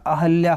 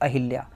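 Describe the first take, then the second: First: The second syllable is said as 'hal'. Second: The second syllable is said as 'hil'. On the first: The speaker calls it right. "अहल्या होता है" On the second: The speaker calls it wrong. "ना कि अहिल्या"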